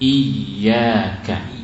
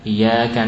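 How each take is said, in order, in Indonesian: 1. Bunyi y-nya ditahan dan ditasydid. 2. Bunyi y-nya pendek dan tunggal. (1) "tasdidnya jelas" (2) "tidak ditasdid"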